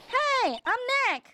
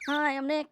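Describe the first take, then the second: First: It is said loudly. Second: It is said quietly.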